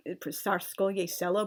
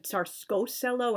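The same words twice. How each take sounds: First: Said in the usual way. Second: "Tsarsko Selo" with the -ye dropped; naive misreading. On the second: Shown as a demonstration. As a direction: say "Tsarsko Selo" as SAR-sko SELL-o. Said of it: "made me want to pronounce it".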